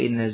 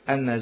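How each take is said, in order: First: The first vowel is an 'i' sound. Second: The first vowel is an 'a' sound. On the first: The clause after it is a full sentence needing no reconstruction. "dengan kasra inna" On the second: The clause after it works as a single noun with an omitted part. "atau dengan fathahnya"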